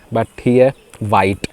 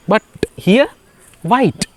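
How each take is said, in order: First: Said in the usual way. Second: Playful high squeak. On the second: Acted. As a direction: squeak it out like a mock surprised joke.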